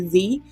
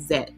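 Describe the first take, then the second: First: The letter name is said the American way. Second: The letter name is said the German way. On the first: "but we say Z" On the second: "they say, I think they said Z"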